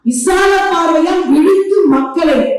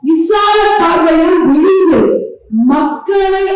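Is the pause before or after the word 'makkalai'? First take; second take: after; before. First: The pause comes after the word makkalai. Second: The pause comes before the word makkalai. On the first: The speaker calls it wrong. "தவறான ஒரு உச்சரிப்பு" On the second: The speaker calls it right. "அதோட நிறுத்திக்கணும்"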